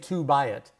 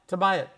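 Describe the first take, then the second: First: The word 'to' has a full vowel. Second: The word 'to' has a reduced vowel. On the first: The speaker calls it wrong. "We don't say to buy it" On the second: The speaker calls it right. "it's too much work on the mouth"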